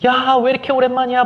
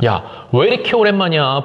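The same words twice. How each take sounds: First: Put-on much higher gushing squeal of a girlfriend; women fussing. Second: Plain. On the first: Women friends reuniting, gushing higher. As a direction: squeal it like a friend overjoyed to meet. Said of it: "호들갑을 떤다고". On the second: Retold or imitated. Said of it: "항상 오바를 해줘요".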